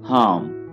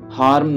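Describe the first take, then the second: First: The r sound is left silent. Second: The r sound is clearly pronounced. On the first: The speaker calls it right. "यहाँ पे आर को आपने नहीं पढ़ना है. आर silent है" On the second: The speaker calls it wrong. "हार्म नहीं पढ़िएगा इसे"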